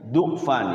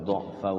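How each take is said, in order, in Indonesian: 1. Vokal pertamanya bunyi u membulat. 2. Vokal pertamanya bunyi a terbuka. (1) "kalau kita mau membaca dha-nya itu di dhammah" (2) "Normalnya di sini dha'fin"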